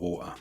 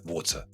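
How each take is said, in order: First: The middle T is softened, not clearly pronounced. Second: The middle T is clearly pronounced. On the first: "it will not become" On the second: "the T in the middle of a word tends to be clearly pronounced"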